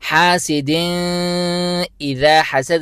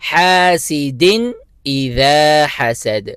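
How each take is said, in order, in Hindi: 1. आख़िरी n को नाक की गुन्ना के साथ रोका जाता है। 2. आख़िरी n साफ़ है, उसमें नाक की गुन्ना नहीं होती। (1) "नहीं पढ़ेंगे" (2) "जाहिर करके बगैर गुन्ने के"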